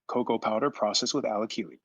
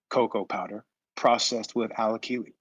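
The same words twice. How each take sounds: First: It is read at a faster pace. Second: It is read at a slower pace.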